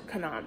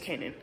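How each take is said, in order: First: The name is said in the speaker's own way. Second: The name is said in the American way. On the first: "Or I call it Kanan" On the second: "I think American way of saying it is Kanan"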